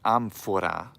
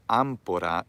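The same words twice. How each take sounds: First: The middle consonant is an f sound. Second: The middle consonant is an aspirated p. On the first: The speaker calls it right. "it's amphora with an F" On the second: The speaker calls it wrong. "it's not amphora"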